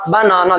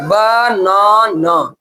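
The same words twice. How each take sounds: First: Said in the usual way. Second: banana slowly split as ब... ना... ना; broken into syllables. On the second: Shown as a demonstration. Teacher showing class the three breaks, banana syllable by syllable. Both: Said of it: "कितना बार में तोड़ के बोले".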